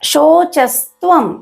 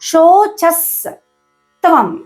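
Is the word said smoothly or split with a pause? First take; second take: smooth; split. First: The word is said smoothly without any break. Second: The word is split with a break before tvam. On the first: "శోచస్త్వం అని పలకాలి" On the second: "అలా divide చేసుకుంటే మనకి పలకడం easy అవుతుంది"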